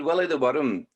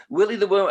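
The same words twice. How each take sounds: First: Willie the Worm with Scottish vowels and a rolled "Worm"; Scottish-accented title announcement. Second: Said in the usual way. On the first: Shown as a demonstration. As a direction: say "Willie the Worm" like a Scot, "Worm" in two syllables. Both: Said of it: "Worms all speak with a Scottish accent".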